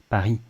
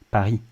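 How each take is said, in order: Both takes have the same delivery.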